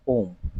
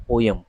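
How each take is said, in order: First: "पोम" in one syllable, POHM; no "yum" in "पोम", just one long o; claimed correct pronunciation. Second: "पोयम" in two syllables, PO-yum; common mispronunciation. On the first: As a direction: say "पोम" as pohm, rhyming with home. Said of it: "पोयम ना होकर के क्या है". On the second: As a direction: say "पोयम" as po-yam. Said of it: "उच्चारण पोयम ना होकर". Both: Shown as a demonstration.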